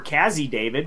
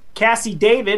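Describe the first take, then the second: First: The first name has a z sound in the middle. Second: The first name has an s sound in the middle. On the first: The speaker calls it right. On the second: The speaker calls it wrong.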